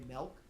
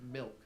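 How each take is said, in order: First: The vowel sounds like 'eh', as in melk. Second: The vowel sounds like 'ih', as in milk. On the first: "just naturally I say it with an E" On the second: "it's an I"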